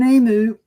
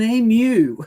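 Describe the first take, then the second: First: The word ends with a plain 'oo' sound. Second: The word ends with a 'yoo' sound. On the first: The speaker calls it wrong. "not an emu" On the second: The speaker calls it right. "There's no oo on the end of it, it's a u"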